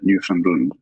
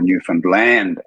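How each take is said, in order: First: It is said with an outsider's pronunciation. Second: It is said with the local pronunciation. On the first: The speaker calls it wrong. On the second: The speaker calls it right.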